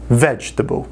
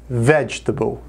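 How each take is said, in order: No difference in how they are said.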